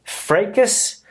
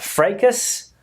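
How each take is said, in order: First: It is said with an American pronunciation. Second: The same.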